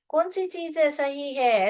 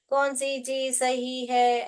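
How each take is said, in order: First: The question is said with lively questioning expression. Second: The question is said flatly without questioning expression. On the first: The speaker calls it right. "जैसे हम हिंदी की बात करते हैं" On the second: The speaker calls it wrong. "ऐसे थोड़े ना पूछते हैं सवाल हम"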